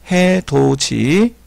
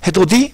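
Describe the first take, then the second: First: "해돋이" said slowly [해도지], with a j; palatalized reading. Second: "해돋이" said [해도디], with a d before i; unpalatalized reading. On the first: Teacher correcting the reading, "해돋이" slowly as [해도지]. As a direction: spell out "해돋이" slowly as haedoji. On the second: Teacher showing the mistake to avoid, "해돋이" as [해도디]. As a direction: demonstrate "해돋이" as haedodi. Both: Shown as a demonstration. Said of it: "아니고 해돋이".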